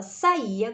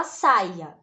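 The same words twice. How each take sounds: First: Saía with the stress on the Í, sa-Í-a; saía in three syllables, leaning on the í; stress on second syllable. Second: Saia with the stress on SA, SAI-a; stress on first syllable. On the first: Teacher reading out the correct option, saía stressed on the í. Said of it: "A opção correta é esta". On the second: Teacher reading the unaccented option, saia stressed on SAI. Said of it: "como a gente vai ler a de baixo". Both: Shown as a demonstration.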